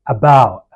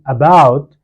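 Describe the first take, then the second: First: The final T is a throaty hiccup stop. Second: The final T is fully released. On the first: "you say" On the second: "instead of saying"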